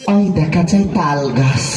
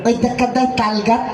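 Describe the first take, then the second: First: It is recited in an exaggerated, affected put-on voice. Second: It is recited in a simple childlike reciting voice. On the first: A different, caricatured person is reciting the poem. "এটা হিজড়ার কাছে ... লক্ষ্য করে শোনেন" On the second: A small child is reciting the poem. "একটা বাচ্চার কাছে কবিতা যদি দেওয়া হয় তা ঠিক এইভাবে বলবে"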